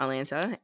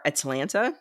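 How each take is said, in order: First: Atlanta in three syllables, like the city; mistaken city pronunciation. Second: Atlanta with an added syllable, "At-a-LAN-ta"; corrected pronunciation. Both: Shown as a demonstration. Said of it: "not Atlanta".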